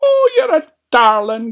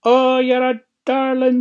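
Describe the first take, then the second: First: High, loud granny exclamation; old granny. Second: High, loud fake granny exclamation; put-on old lady voice. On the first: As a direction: coo loudly as a high-voiced old granny. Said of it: "Granny said". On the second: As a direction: coo loudly as a wolf playing granny. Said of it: "put on his best old lady's voice". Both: A narrator's reading.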